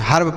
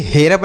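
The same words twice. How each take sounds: First: हर्ब said as "harb", short a before rb. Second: हेरब said as "he-rab", two syllables; E read as "ay". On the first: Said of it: "इसका उच्चारण अ हो जाएगा". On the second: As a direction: open हेरब with "hay", then "rab". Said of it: "इसे हेरब नहीं पढ़ेंगे". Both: Shown as a demonstration.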